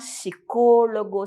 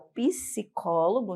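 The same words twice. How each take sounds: First: The initial P sound is silent. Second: The initial P sound is pronounced. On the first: This is the Spanish pronunciation. "no espanhol a gente já vai suprimir esse P" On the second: This is the Portuguese pronunciation. "no português é o psicólogo"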